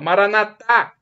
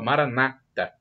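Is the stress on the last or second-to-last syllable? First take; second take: last; second-to-last. First: The stress is on the last syllable. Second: The stress is on the second-to-last syllable. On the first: This is how Catholics say it. "colocamos na última sílaba" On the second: This is how Protestants say it. "Eles colocam a tônica na penúltima sílaba"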